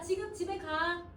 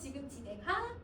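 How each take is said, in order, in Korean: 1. 끝에서 음이 내려가요. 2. 끝에서 음이 올라가요. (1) "이러면 내렸거든? 이건 평서야" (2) "선생님 마이크를 올렸어. 의문문이지"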